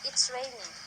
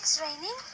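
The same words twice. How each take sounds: First: The voice falls at the end, like a statement. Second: The voice sounds surprised while stating it. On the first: It is simply stating a fact. "that I statement" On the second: It states the fact with surprise. "That is the statement of surprise"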